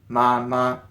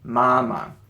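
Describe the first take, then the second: First: The second syllable keeps a full high tone. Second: The second syllable is light and toneless. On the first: "as opposed to mama" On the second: "the second one often kind of drops the tone. So you just go mama"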